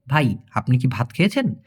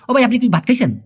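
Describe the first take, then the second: First: "ভাই, আপনি কি ভাত খেয়েছেন?" word by word, lower and softer; slow broken-up speech. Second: "ও ভাই, আপনি কি ভাত খাইছেন?" run together quickly and a bit higher; fast rattled-off question. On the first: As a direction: break the sentence into careful pieces for a learner. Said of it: "ভেঙে ভেঙে বলতে". (ধীরে ধীরে ভেঙে ভেঙে বলা) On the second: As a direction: rush the words like a native speaker chatting. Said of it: "ফুরফুর করে কথা না বলে". (তাড়াহুড়ো করে ফুরফুর করে বলা) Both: Shown as a demonstration.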